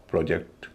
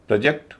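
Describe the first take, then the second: First: project as pro-JEKT, second part stressed; verb pronunciation. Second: project as PROJ-ekt, first part stressed; noun pronunciation. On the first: Teacher giving the verb form, project stressed last. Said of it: "verb के मामले में अलग हो जाता है". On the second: Teacher contrasting noun and verb, project stressed first. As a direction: hit the start of project. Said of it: "noun के मामले में उच्चारण अलग". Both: Shown as a demonstration.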